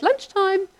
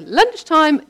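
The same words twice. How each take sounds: First: High, lilting call to the sheep; high sing-song call. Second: Louder, higher call with a falling end; mum's call to the sheep. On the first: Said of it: "mum and I sound the same on the phone". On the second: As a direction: call the flock like mum does. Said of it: "When my mum would go down and go". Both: Retold or imitated.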